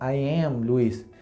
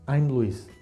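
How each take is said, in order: First: "I" and "am" are said as two words. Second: "I" and "am" are joined into one syllable. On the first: "a veces no decimos I am Luis" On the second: "sino simplemente I'm Luis"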